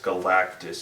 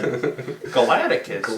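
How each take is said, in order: First: The name is said with three syllables. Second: The name is said with four syllables. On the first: The speaker calls it right. "It's Galactus" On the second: The speaker calls it wrong. "stop calling him Galacticus"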